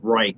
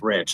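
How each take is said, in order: First: The vowel sounds like 'eye'. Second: The vowel sounds like 'it'. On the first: The speaker calls it wrong. "everybody says Reich" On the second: The speaker calls it right. "and it's Rich"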